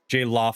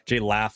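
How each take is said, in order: First: The name ends with a 'loff' sound. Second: The name ends with a 'laugh' sound. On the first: "like a L O F" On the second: "like you're laughing"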